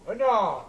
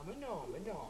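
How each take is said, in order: First: "mais non" at normal volume, falling at the end; audible, insistent "mais non"; firmer denial. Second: Very soft, placating denial; hushed appeasing murmur; meek backing down. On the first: Repeats the denial more firmly. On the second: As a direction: retreat at once, barely audible. Backs down before his wife. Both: Acted.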